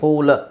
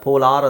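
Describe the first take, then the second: First: The word ends in a short weak vowel. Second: The word ends in a long 'ar' sound. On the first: The speaker calls it right. "ಇಲ್ಲಿ ಪೋಲ" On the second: The speaker calls it wrong. "ಪೋಲಾರ್ ಅಂತ ಬರಲ್ಲ"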